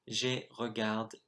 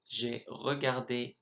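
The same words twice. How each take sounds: First: The word ends without the final é vowel. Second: The final é vowel is clearly pronounced. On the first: The speaker calls it wrong. "I said j'ai regarde" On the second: The speaker calls it right. "instead of saying j'ai regardé"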